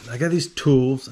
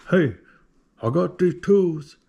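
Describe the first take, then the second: First: Said in the usual way. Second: A hint of a hillbilly twang, slower and louder; hillbilly accent. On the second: Recounting the email to Snap-on in a louder, slower hillbilly twang. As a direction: lean into a Southern drawl on tools. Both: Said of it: "there was no accent in the emails".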